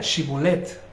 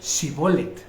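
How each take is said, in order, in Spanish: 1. La palabra empieza con un sonido sh. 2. La palabra empieza con un sonido s simple. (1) "Así era" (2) "Y ellos decían shibolet. Porque la H es muda"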